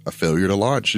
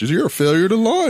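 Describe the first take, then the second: First: Said in the usual way. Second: High, loud mocking dad voice; stern dad. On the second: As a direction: jab it like a disappointed father. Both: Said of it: "my dad was so afraid".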